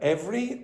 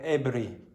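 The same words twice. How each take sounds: First: The v sound is clear and distinct. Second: The v sound is weak and unclear. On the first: The speaker calls it right. "a very clear v v v v every" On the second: The speaker calls it wrong. "or was it more like every?"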